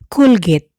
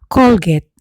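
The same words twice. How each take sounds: First: The first vowel is a u sound. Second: The first vowel is an o sound. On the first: "will often be pronounced U by Bicol speakers" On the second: "the O sound written in Spanish or in English"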